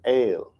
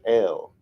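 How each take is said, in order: First: The vowel sounds like the word 'ale'. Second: The vowel sounds like the letter 'L'. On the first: "they pronounce it ale" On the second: "instead of L"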